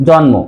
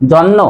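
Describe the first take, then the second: First: জন্ম as "jonmo", m sounded; correct pronunciation. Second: জন্ম as "jonno", m dropped; wrong pronunciation. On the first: Teacher gives the usual form, clear m in জন্ম. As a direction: say জন্ম with n then m. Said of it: "উচ্চারণ করি কি". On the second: Teacher asks if we say it so, m missing in জন্ম. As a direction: say জন্ম with a doubled n. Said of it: "আমরা কি উচ্চারণ করি যে". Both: Shown as a demonstration.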